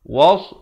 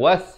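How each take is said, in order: First: The s sound is heavy and emphatic. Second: The s sound is light and plain. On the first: The speaker calls it right. "Sekarang ni waw baris atas bertemu sod" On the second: The speaker calls it wrong. "seakan-akan waw baris atas bertemu sin"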